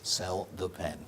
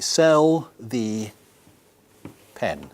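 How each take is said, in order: First: It is said at normal speed. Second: It is said slowly.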